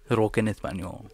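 It is said with a Spanish accent.

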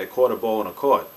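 It is said in a Pittsburgh accent.

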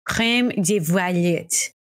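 It is said with a French accent.

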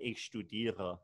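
The R is German, made at the back.

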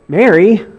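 The name is said as a reproachful question. The speaker wonders why he is not recognized. "Like that? Like, don't you recognize me?"

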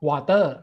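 It is said with a Thai accent. "ผมออกเสียงว่า"

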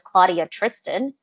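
The name is pronounced with English sounds. This is an anglicized version of the name. The speaker calls it wrong. "I'm never going to tell you my name is Claudia Tristan because that's not my name"

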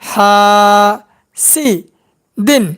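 Each syllable is said separately with pauses between. "এবার ভাঙ্গা ভাঙ্গা উচ্চারণ"

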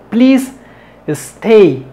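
There is a break between the two words. The speaker calls it wrong. "Eso no lo hagas"

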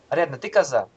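The pitch falls at the end like a statement. He asserts that she is a goat. "В одном случае утверждаю, что она коза"

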